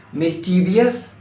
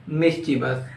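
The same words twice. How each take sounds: First: Slow, rising "Mischievous" as mis-TEE-vi-us; wrong MISCHIEVOUS. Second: "mischievous" as MIS-chi-vus, falling; corrected MISCHIEVOUS. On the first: Teacher quizzing learners on "Mischievous", rising mis-TEE-vi-us. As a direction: say "Mischievous" with an extra I before the ending. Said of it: "No, incorrect". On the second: Teacher correcting learners, "mischievous" said as MIS-chi-vus. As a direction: say "mischievous" in three syllables. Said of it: "It's not mischievous". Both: Shown as a demonstration.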